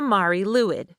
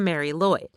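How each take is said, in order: First: The name is said with Welsh sounds. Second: The name is said with English sounds. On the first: The speaker calls it right. "that thing is the Mari Lwyd" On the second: The speaker calls it wrong. "commonly mispronounced as"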